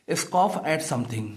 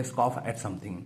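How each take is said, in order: First: Slow dictation. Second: Said in the usual way. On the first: Shown as a demonstration. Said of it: "यानी कि scoff का मतलब होता है". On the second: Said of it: "तो scoff करना हो गया".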